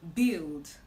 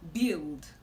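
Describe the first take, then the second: The two takes are said the same way.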